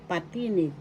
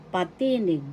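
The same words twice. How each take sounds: The two takes are said the same way.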